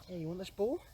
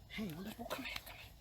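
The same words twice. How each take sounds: First: Said in the usual way. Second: Whisper. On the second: Real, not acted. Coaxing scared dog.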